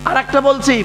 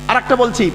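No difference in how they are said.

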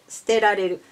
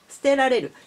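First: The pitch stays flat with no drop. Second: The pitch rises and then drops inside the word. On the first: The speaker calls it right. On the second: The speaker calls it wrong.

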